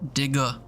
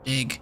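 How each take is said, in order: First: The final G is hard with an audible release. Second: The final G is soft and barely released. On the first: "How hard do my G's have to be?" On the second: "Sound like dig"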